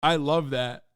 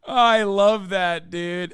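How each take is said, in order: First: Said in the usual way. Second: Louder, slow, savoring every word; relishing delight. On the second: Real, not acted. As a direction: drag it out with loud glee. Savoring the clip after laughing.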